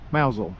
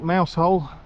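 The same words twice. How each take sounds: First: It is pronounced differently from its spelling. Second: It is pronounced just as it is spelled. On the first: The speaker calls it right. "the correct pronunciation is Mousehole" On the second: The speaker calls it wrong. "Spelt Mousehole"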